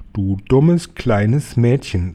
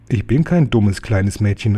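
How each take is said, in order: First: Slow, drawn-out teacher's scolding; slow, disdainful reprimand. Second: Mildly indignant retort, stress on "kein"; understated protesting call; indignant cry. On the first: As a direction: scold a pupil slowly, weight on "dummes". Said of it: "sagte Frau Winter". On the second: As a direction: talk back to the teacher, hitting "kein". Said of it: "rief ich". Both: A narrator's reading.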